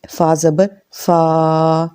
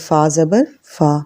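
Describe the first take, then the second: First: The final vowel is drawn out long. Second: The final vowel is short and soft. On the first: The speaker calls it wrong. "उसको लंबा नहीं करना ... ऐसे नहीं पढ़ना" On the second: The speaker calls it right. "बहुत नरमी से पढ़ना है"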